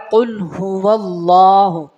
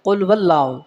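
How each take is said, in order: First: "قل هو اللہ" slow, clear hu, long lā; correct reading. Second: "قل هو اللہ" rushed as qul-wallau; wrong reading. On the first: Teacher models the next phrase, slow full "قل هو اللہ". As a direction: draw out "اللہ", every sound present. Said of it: "اکثر اب آپ پڑھتے ہیں". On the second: Teacher shows the wrong way, slurred "قل هو اللہ". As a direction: swallow the h sounds in "قل هو اللہ". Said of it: "ہا کو کھا جاتے ہیں". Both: Shown as a demonstration.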